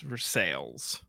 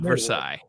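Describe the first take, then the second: First: The name is pronounced the English way. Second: The name is pronounced the French way. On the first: It names the town in Indiana. The speaker calls it right. "we're not big on pronouncing things like after what they're named for" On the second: It names the French palace. The speaker calls it wrong. "It is not the court of King Louis the 14th"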